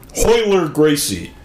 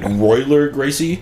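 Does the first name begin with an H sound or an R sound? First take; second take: H sound; R sound. First: The first name begins with an H sound. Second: The first name begins with an R sound.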